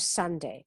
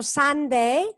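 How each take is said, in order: First: Sunday with a short u, as "sande", quieter; teacher giving the correct short vowel. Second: Sunday with a full open "o"-like vowel, higher; teacher showing the mistake to avoid; wrong vowel. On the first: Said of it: "con la U corta". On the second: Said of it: "No es tanto Sunday". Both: Shown as a demonstration.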